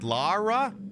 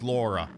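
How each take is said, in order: First: The first vowel sounds like 'ah'. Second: The first vowel sounds like 'aw'. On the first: "pronounce it with more of an A" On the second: "I think maybe it is still pronounced Laura"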